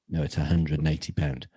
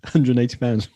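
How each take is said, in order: First: Said in the usual way. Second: Laughing punchline delivery; joke punchline. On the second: Shown as a demonstration. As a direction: land it loud and high with a laugh. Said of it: "What a punchline".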